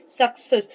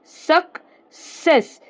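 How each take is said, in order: First: Said in the usual way. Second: सक्सेस drawn out slowly, first C as a hard k; slow model word. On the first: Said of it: "क्या हो गया ये?". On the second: Shown as a demonstration. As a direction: say सक्सेस slowly for the class, syllable by syllable. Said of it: "तो इसको हम बोलेंगे क".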